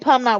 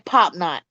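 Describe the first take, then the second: First: The word is said in a non-Southern way. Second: The word is said in a Southern way. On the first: The speaker calls it wrong. "We don't say" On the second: The speaker calls it right. "we say"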